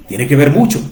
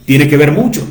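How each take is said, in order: Both takes have the same delivery.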